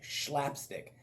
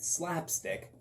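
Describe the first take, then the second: First: The word begins with a sh sound. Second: The word begins with a plain s sound. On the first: The speaker calls it wrong. "I always want to say it with an S H" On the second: The speaker calls it right. "it's traditionally considered slapstick"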